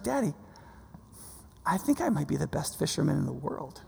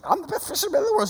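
First: Softly imitated little girl, quietly self-satisfied; daughter's understated boast. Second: High, rapid mimicry of a boast; mocking little-sister imitation. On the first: Five-year-old telling Daddy about her fishing, quietly boastful. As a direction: lightly voice a child's hushed, matter-of-fact boast. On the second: Brother complaining to Mom about sister's boast, mocking.

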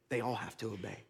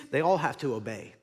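First: Dropped to a soft, low repeat; quiet echo. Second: Said in the usual way. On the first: Shown as a demonstration. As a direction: let the line sink to a near whisper.

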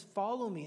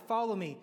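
First: Said in the usual way. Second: Louder, firm invitation to follow; a leader rallying followers, louder; encouraging call. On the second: Pretend. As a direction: beckon them on, firm and louder. Acting Jesus calling people on.

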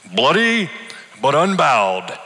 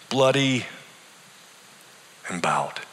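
First: A dying man's quoted poetry, higher and louder; mumbled defiance. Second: Trailing off to a whisper on bowed; defeated whisper. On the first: Sick old man quoting poetry to his pastor, defiant. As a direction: quote the poem with defiant pride. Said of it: "He mumbled". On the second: Dying man answering his pastor, defeated and fading. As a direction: let the last word fade to breath. Arthur's bitter variation. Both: A narrator's reading.

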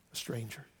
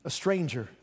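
First: Softer, lower repeat of "A stranger."; hushed echo. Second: Said in the usual way. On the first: Shown as a demonstration. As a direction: drop "A stranger." to a near hush.

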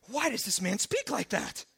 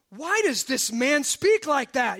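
First: Muted indignant questioning. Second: Slow, emphatic indignant challenge; indignant questioning. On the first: Scribes questioning in their hearts, indignant but held back. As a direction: pose it as a disapproving murmur of objection. Scribes' objection repeated after aside. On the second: Scribes objecting to Jesus forgiving, loudly indignant. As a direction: demand it, stretching the words in disbelief. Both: Acted.

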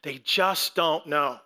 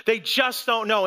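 First: "just" leaned on, lower and slow; soft lament. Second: Said in the usual way. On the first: Shown as a demonstration. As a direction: let "They just don't know" fall away slowly.

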